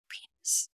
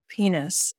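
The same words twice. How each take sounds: First: The word is said at a quieter volume. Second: The word is said at a louder volume. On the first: This opens the game. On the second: This answers and raises the challenge.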